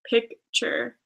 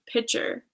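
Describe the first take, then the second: First: The word is said with a k sound. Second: The word is said without a k sound. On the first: The speaker calls it right. "instead of pic, picture" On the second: The speaker calls it wrong. "I say pitcher"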